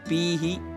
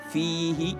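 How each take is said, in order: First: The word begins with a p-like stopped sound. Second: The word begins with a soft, breathy f sound. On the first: The speaker calls it wrong. "jangan fihi ya" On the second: The speaker calls it right. "Tegaskan lagi uh, apa namanya rokhawanya fihi"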